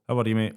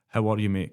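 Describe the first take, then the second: First: It is asked quickly and casually, in passing. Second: It is asked earnestly, wanting a real answer.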